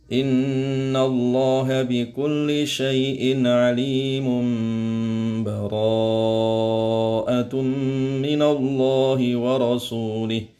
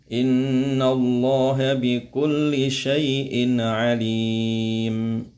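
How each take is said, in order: First: It runs straight on with no stop. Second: It stops briefly without taking a breath. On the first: "Yang ketiga diwasolkan ya" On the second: "Berhenti tapi tanpa nafas"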